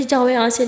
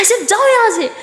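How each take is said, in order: First: Said in the usual way. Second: High, loud angry yell; furious shout. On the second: Acted. Lakshmi screams at Lily to leave her room, furious high shout. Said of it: "बहुत ज़ोर से चिल्लाती है".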